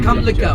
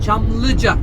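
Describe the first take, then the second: First: The word begins with a 'k' sound. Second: The word begins with a 'ch' sound. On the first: The speaker calls it wrong. "Not Kamlıca" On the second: The speaker calls it right. "look at my mouth"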